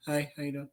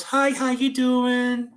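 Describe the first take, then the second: First: Wary greeting. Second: High, slow, drawn-out hello; chirpy greeting. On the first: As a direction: greet strangers under your breath. Child's wary greeting to strangers. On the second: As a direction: imitate an overly friendly stranger. Normal third person's friendly greeting. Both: Retold or imitated.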